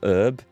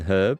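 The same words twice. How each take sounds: First: The word starts with no H sound. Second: The word starts with an audible H sound. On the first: The speaker calls it wrong. "I know Americans don't pronounce it" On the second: The speaker calls it right. "I pronounced the H in, in herb"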